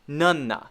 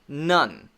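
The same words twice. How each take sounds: First: An extra vowel sound follows the final n. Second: The word stops cleanly on the final n. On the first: The speaker calls it wrong. "You don't want to say none" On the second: The speaker calls it right. "You have to end there"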